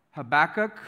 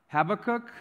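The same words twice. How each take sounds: First: Habakkuk as huh-BACK-uk, stress on the middle; variant pronunciation. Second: Habakkuk as HAB-uh-kook, stress up front; higher voice, first syllable of Habakkuk stressed, ending raised; variant pronunciation. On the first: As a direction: stress the second syllable of Habakkuk, ending raised. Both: Shown as a demonstration. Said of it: "Some people call it".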